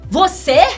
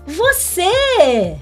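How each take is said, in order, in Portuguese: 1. Soa desconfiada e acusadora. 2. Soa agradavelmente surpresa e feliz. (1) "De acusação"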